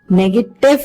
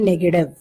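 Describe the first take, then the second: First: The consonant before the last vowel is a clear t. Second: The consonant before the last vowel is a soft d. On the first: The speaker calls it wrong. "Negative nahi" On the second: The speaker calls it right. "ये जो ट है हमारा ये ड बन जाता है"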